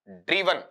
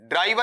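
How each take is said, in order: First: The first vowel is an 'ee' sound. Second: The first vowel is an 'eye' sound. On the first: The speaker calls it right. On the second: The speaker calls it wrong.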